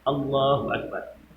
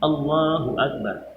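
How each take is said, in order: First: The opening vowel is short; the lengthening comes later. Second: The opening vowel is short; the lengthening comes later.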